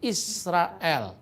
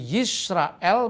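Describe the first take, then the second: First: The word begins with a vowel sound. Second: The word begins with a y sound. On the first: This is the East Syrian dialect form. "di Syria Timur dipakai dialek Shema Israel" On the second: This is the original Hebrew form. "bukan Yisrael"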